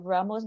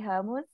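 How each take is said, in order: First: The name is said the easier, English-like way. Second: The name is said the Brazilian Portuguese way.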